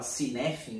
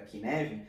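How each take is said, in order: First: The name begins with an s sound. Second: The name begins with a k sound. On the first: The speaker calls it wrong. "inclusive até a pronúncia eu pronunciei errado. Eu falava Cinefin" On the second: The speaker calls it right. "eu vim entender que era Kinevin"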